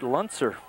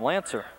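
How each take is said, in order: First: The name is said as Luntzer. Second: The name is said as Lancer. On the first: This is how the family pronounces the name. "they pronounce it Luntzer" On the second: This is how another branch of the family pronounces the name. "on the south side, they call him Lancer"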